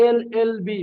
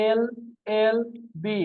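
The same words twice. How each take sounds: First: Said in the usual way. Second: এল, এল, বি said letter by letter with pauses; letters spelled out. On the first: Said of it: "যে দেখো". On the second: Shown as a demonstration. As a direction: spell out each letter separately. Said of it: "কি বলা হলো?". (প্রতিটি অক্ষর আলাদা করে থেমে থেমে বলা)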